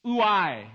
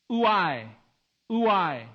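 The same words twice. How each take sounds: First: "Ouai" detto oo-AI, lento; Greek word ouai. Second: "Ouai" detto oo-AI, con dolore, cadente; sorrowful ouai. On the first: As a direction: pronuncia "Ouai" come oo-AI, in due sillabe. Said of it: "Ouai is the Greek word". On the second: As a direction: lascia cadere "ouai" come un lamento. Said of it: "Even its sound conveys sadness". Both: Shown as a demonstration.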